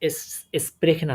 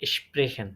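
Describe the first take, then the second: First: The word begins with a plain s sound. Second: The word begins with an sh sound. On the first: The speaker calls it wrong. "আর হচ্ছে না" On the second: The speaker calls it right. "এরকমই হয়ে যাচ্ছে"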